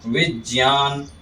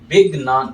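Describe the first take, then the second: First: The cluster is pronounced with j and y sounds. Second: The cluster is pronounced with g and n sounds. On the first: The speaker calls it right. "ज और य मिलके ज्ञ बनता है। ... ऐसे शुद्ध उच्चारण हमें करना चाहिए।" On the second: The speaker calls it wrong. "ग और न उच्चारण करते हैं, वो भी गलत है।"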